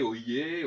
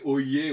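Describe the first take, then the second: First: "oyez" said again quickly as o-yé; quick repeat of oi. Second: "oyez" drawn out slowly as o-yé, rising at the end; old oi sound. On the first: Lecturer repeating the old oi word for the audience. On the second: Lecturer reviving the lost oi sound for listeners. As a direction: stretch "oyez" to show the lost oi. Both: Shown as a demonstration. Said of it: "le son oi s'est perdu".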